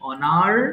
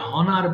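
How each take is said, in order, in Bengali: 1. শব্দটি সরাসরি একটি স্বরধ্বনি দিয়ে শুরু হয়। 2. শব্দটি h ধ্বনি দিয়ে শুরু হয়। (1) "এইচ এর উচ্চারণটা বাদ" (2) "এটা অনেকে ভুল করে হনার বলে ফেলে"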